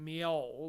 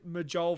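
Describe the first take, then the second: First: The middle consonant is a Y sound. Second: The middle consonant is a hard J sound. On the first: The speaker calls it right. "pronounce it Miol like a Y" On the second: The speaker calls it wrong. "I called her M- Majol for the longest time before I knew"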